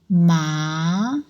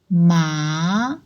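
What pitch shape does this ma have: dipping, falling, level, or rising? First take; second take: rising; rising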